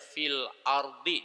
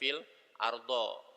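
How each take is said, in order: First: The last word ends with an i vowel. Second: The last word ends with an a vowel. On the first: The speaker calls it right. "dia pasti bacanya fil ardi, dikasrohkan" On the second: The speaker calls it wrong. "nggak boleh dibaca fil ardo"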